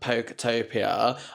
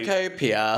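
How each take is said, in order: First: A 't' sound is added in the middle. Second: No 't' sound is in the middle. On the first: The speaker calls it wrong. "I can never say" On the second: The speaker calls it right. "it's not got a T"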